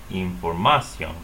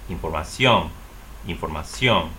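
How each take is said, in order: First: Información stressed on MA, in-for-MA-cion; wrong next-to-last stress. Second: Información stressed on the final -CIÓN; correct last-syllable stress. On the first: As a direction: put the weight on MA in información, not on the ending. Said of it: "However, that's incorrect stress". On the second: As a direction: say in-for-ma-CIÓN, weight at the end. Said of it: "to tell the person to say". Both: Shown as a demonstration.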